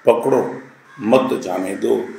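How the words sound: The pause comes after 'पकड़ो'.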